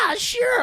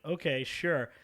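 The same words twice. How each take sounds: First: High, loud mock-eager yes; eager sophomore. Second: Said in the usual way. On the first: Sophomore accepting invite to get high, mock eager. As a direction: imitate an over-keen kid, pitched way up. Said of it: "I was, like, a sophomore".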